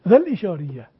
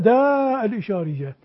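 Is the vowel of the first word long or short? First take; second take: short; long. First: The first word's vowel is shortened. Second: The first word keeps a long vowel. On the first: The speaker calls it right. "ما الذي سقط؟ الألف وهمزة الوصل" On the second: The speaker calls it wrong. "لا"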